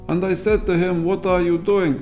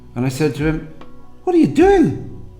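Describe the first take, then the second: First: There is no pause before the question. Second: There is a clear pause before the question. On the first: "If you run it together" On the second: "Listen to the pauses"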